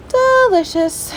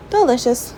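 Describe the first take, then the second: First: Drawn-out, much higher "Delicious"; a playful, sing-song "Delicious"; mock delighted. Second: Said in the usual way. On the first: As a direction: stretch "Delicious" slowly up high in mock delight. Savoring food, drawn out.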